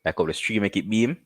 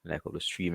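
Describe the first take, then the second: First: "stream" and "beam" rising at the line ends; pleased, finished rhyme delivery; rhyme found. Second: Quietly testing the line to himself; half-voiced draft of the rhyme; muttered try-out. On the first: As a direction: land the rhyme "stream... beam" with an upward lift. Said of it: "that sound like something". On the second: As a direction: murmur "Like up the stream" under his breath, searching for the rhyme. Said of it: "What would I say?". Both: Shown as a demonstration.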